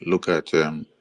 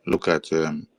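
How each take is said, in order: Both takes have the same delivery.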